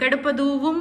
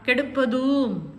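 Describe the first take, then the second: First: A 'v' glide joins the vowel to 'um'. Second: The vowel is lengthened without a 'v' glide. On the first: The speaker calls it wrong. "கெடுப்பதுவும் அப்படின்னு வாசிக்கக்கூடாது" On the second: The speaker calls it right. "இதை இப்படி தான் read பண்ணும்"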